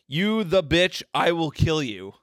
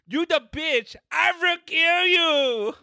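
First: It is read in the speaker's own voice. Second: It is read in a put-on Chinese accent.

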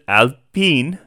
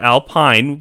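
First: The name is pronounced the French way. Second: The name is pronounced the English way. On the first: The speaker calls it right. "this is how you pronounce it" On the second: The speaker calls it wrong. "It's not Alpine, which is what it looks like"

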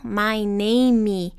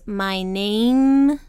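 First: The final M is released with a vowel after it. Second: The final M is swallowed with the lips closed. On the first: The speaker calls it wrong. "a gente não vai pronunciar como name" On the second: The speaker calls it right. "O M aqui, a gente engole ele... fecha os lábios"

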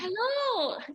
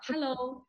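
First: It is said in a very enthusiastic way. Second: It is said in a flat, unenthusiastic way.

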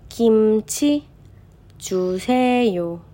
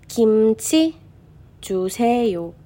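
The two takes are said the same way.

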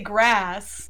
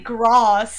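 First: The vowel is a front 'eh' sound. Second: The vowel is an open 'ah' sound. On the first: This is the speaker's own Southern way. "I say grass" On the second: This is how other people say it. "I don't say grass"

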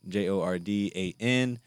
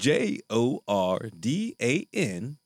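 First: It is spelled in his normal voice. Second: It is spelled in a put-on radio voice.

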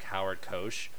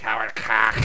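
First: The surname is said clearly and normally. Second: The surname is slurred into a rude-sounding word. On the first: "the name of the producer was, like" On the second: "I literally just, like, slurred it"

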